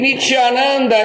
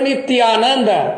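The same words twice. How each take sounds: First: The t is palatal, close to a ch sound. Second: The t is dental, tongue against the teeth. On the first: He is the bliss of the fallen. The speaker calls it wrong. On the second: He is the bliss of eternity. The speaker calls it right.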